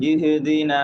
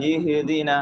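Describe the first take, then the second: The two takes are said the same way.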